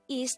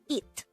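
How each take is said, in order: First: The syllable ends with an s sound. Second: The syllable ends with a t sound. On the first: The speaker calls it wrong. "instead of is" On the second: The speaker calls it right. "pronounced as it"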